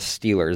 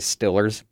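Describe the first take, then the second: First: The vowel is a standard long E sound. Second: The vowel sounds like I, Pittsburgh style.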